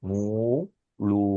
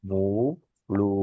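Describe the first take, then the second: Both takes have the same delivery.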